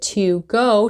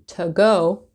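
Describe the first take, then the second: First: To is said with a full vowel. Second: To is said with a weak, reduced vowel.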